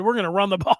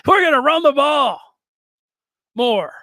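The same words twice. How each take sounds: First: Said in the usual way. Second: Louder and higher, laughing through the cliché; loud laughing quote. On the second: Retold or imitated. Podcaster mocking the coordinator's run-the-ball answer, loud and laughing. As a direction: belt out the coach's line with a laugh. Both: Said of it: "He said".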